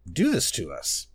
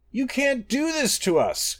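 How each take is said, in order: First: Echoing. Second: Very high, pleading cry. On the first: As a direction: echo it as a small questioning repeat. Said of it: "echoed Secunda". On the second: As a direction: wail in protest as the threatened moon. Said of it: "cried Master". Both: A narrator's reading.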